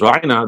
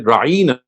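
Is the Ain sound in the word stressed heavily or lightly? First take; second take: lightly; heavily. First: The Ain sound is said lightly, without extra stress. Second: The Ain sound is said with heavy extra stress. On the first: Please attend to us or pardon us. "instead of pronouncing it as Raina" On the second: Our shepherd, used to demean the listener. "They would lay more stress on the word Ain"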